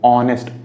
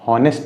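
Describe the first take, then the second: First: The word begins with a vowel sound. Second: The word begins with an h sound. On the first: The speaker calls it right. "ओ से शुरू हो रहा है" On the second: The speaker calls it wrong. "हॉनेस्ट नहीं पढ़ेंगे"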